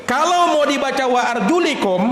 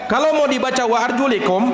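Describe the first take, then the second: The two takes are said the same way.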